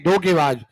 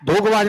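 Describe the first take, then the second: First: धोखेबाज with a clear "khe" in the middle, lower pitch; correct pronunciation. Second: धोखेबाज with the middle "e" lost, roughly "dhokh-baaj"; wrong pronunciation. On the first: Teacher correcting the word for students, clearly pronounced. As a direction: say धोखेबाज as "dho-khe-baaj", every syllable sounded. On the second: Teacher showing students the form to reject, mispronounced. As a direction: say धोखेबाज without a clear "khe" syllable. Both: Shown as a demonstration. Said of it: "धोखेबाज नहीं".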